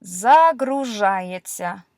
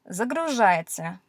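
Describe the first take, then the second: First: Загружается read out slowly, syllable by syllable; slow Russian reading. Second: Said in the usual way. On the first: Shown as a demonstration. Teacher sounding out a verb for learners, slow and careful. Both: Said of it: "here's a verb for you".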